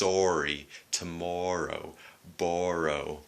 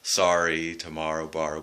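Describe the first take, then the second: First: The words use a Canadian vowel, not 'ah'. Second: The words use the American 'ah' vowel. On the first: "But sometimes it's" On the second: "you'll hear ah, that pronunciation, the American pronunciation"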